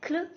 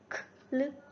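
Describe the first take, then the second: First: The k and l sounds are blended together. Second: The k and l sounds are said apart. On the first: "we will pronounce them as a digraph like kl" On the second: "you can also read them separately"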